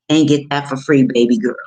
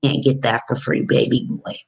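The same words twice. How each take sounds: First: Louder punchline. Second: Said in the usual way. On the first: Real, not acted. Coach teasing viewers about cheap tax prep, louder.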